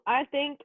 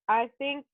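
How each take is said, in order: Both takes have the same delivery.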